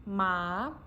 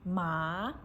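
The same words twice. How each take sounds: First: The pitch rises from middle to high. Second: The same.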